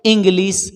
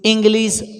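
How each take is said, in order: No difference in how they are said.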